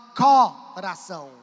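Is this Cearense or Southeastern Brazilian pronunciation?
Cearense. It is said with a Cearense accent. "Você que é cearense da gema, você fala assim"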